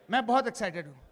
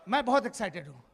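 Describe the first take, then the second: No difference in how they are said.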